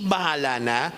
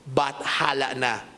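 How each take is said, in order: First: Bahala said plainly without the t. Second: Bathala slowed, the th clearly sounded; Bathala stressed. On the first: Preacher contrasting the common saying, plain bahala. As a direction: say bahala na as the everyday phrase. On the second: Preacher correcting the phrase to the old God's name, slow and deliberate. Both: Shown as a demonstration.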